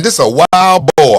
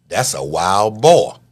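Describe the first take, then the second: First: Louder and slower, with a rising finish; hammed-up excited realization. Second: Said in the usual way. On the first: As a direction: spell it out like you just figured it out. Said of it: "You saying". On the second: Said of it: "You saying to yourself".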